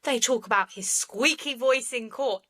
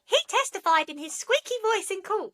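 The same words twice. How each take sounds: First: Said in the usual way. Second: Much higher, squeaky mocking quote; mocking squeaky courtroom voice. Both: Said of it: "I don't know why I did the squeaky voice".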